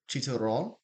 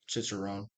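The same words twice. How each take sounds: First: It is said with a Mexican Spanish accent. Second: It is said with an English accent. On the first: "the first one I say is gonna be Mexican version" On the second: "the other one's gonna be the English version"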